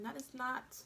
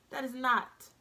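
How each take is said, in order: First: Said in the usual way. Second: NOT hit hard and louder; emphatic repeat. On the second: Shown as a demonstration. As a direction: punch the word NOT as a firm warning. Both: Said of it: "Let me repeat that".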